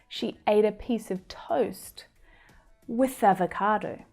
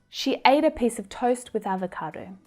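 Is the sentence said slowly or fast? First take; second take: slowly; fast. First: It is said slowly. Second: It is said fast.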